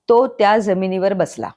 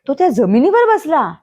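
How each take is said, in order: First: It is said flatly with no word stressed. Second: The stress is on the word जमिनीवर.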